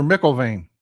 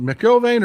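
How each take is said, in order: First: McElvain with the first syllable stressed, falling away; alternative pronunciation of the name. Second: McElvain with the middle syllable stressed, higher; first pronunciation of the name. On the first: Streamer offering the other reading, stress on start of McElvain. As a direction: say McElvain leaning on the Mc. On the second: Streamer checking a new member's name, stress on middle of McElvain. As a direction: say McElvain leaning on the EL. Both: Shown as a demonstration. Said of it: "is it McElvain or McElvain".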